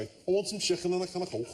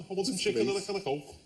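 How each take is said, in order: First: A quick, light Scouse accent. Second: A light Scouse accent, lightly put on. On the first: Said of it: "can only do Scouse if I say". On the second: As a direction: say it in a playful, hint-of-Scouse accent. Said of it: "Can you do the next, like, five minutes in a Scouse voice". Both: Shown as a demonstration.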